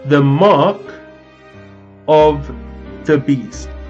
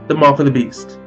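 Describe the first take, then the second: First: It is said very slowly. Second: It is said at normal speed.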